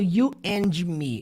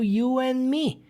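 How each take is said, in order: First: The D at the end of 'and' is pronounced. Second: The D at the end of 'and' is dropped. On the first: The speaker calls it wrong. "Eu não falo" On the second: The speaker calls it right. "Eu falo ... O D do and dificilmente é pronunciado"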